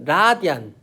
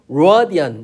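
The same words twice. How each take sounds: First: The word begins with an L sound. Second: The word begins with an R sound. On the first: The speaker calls it wrong. "L 발음은 이걸 하게 되면 라디안 이렇게 하는 거고" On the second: The speaker calls it right. "이거 위에 거는 라디안 이렇게 되는 거야"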